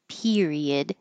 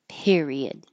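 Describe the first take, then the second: First: The first vowel is a tense, high E. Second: The first vowel is relaxed and lower. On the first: "Really high E" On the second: "A little more relaxed"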